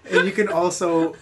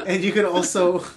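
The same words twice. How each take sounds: The two takes are said the same way.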